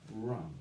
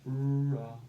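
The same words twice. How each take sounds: First: Said in the usual way. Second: WRONG stretched loud and long; WRONG slowly blended, louder; blending the sounds. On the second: Shown as a demonstration. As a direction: draw out the r and vowel of WRONG. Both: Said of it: "And we say".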